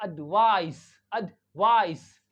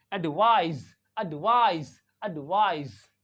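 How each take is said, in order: First: "एडवाइस" slowly, ending in a hissed s; slow "एडवाइस" with voiceless s. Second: "एडवाइज" ending in a buzzed z; "एडवाइज" with voiced z, falling at the end. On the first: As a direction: say "एडवाइस" as uhd-VAAICE, loud stretched second syllable. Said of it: "इसका sound एस". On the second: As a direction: say "एडवाइज" as uhd-VAAIZ, loud second syllable. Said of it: "it sounds like". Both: Shown as a demonstration.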